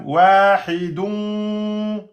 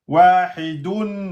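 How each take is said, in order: First: The final n is only a nasal hum. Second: The final n is fully closed against the palate. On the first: "Et le deuxième" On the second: "vous touchez"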